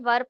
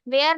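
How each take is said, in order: First: The word is said with an 'er' vowel. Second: The word is said with an 'air' vowel. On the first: The speaker calls it right. "इसे वर पढ़ते हैं" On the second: The speaker calls it wrong. "वेयर नहीं पढ़ेंगे"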